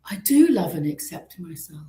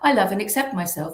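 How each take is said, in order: First: It sounds heartfelt, like a sudden realization. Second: It sounds mechanical, like rote repetition.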